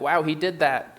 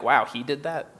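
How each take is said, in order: First: It sounds admiring and impressed. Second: It sounds incredulous and surprised.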